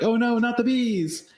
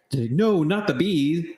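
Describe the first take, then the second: First: Much higher, slow hammed-up wail; Nick Cage impression. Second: Higher panicked mock wail; mock Nick Cage. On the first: Quoting the Wicker Man line, much higher slow wail. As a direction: stretch it into a campy scream. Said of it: "a reference to". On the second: Nick Cage refusing the bee belt, higher hammed-up wail. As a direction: ham up a Nick Cage freakout. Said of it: "and he's like".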